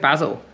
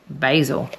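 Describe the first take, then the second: First: Basil is said in a non-American accent. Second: Basil is said in an American accent.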